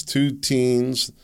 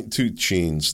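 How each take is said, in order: First: Said in the usual way. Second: "two cheens" with a ch sound in "cheens"; garbled "cheens" with a ch onset; slip of the tongue. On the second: Real, not acted. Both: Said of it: "No, that wasn't a race, racial slur".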